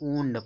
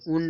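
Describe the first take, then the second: First: The vowel is long, like 'oond'. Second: The vowel is short, like 'und'. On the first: The speaker calls it right. "ऊंड पढ़ते हैं" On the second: The speaker calls it wrong. "उंड नहीं"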